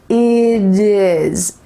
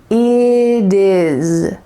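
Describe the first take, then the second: No difference in how they are said.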